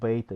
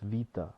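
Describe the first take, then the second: First: The word begins with a B sound. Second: The word begins with a V sound. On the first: The speaker calls it wrong. "It's not beta" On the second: The speaker calls it right. "it's vita"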